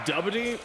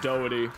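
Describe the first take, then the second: First: The first syllable sounds like 'duh'. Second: The first syllable sounds like 'dough'. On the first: This is the pronunciation others say is correct. "Apparently it's pronounced more like Dubbity" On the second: This is the pronunciation the speaker insists on. "That's the word dough"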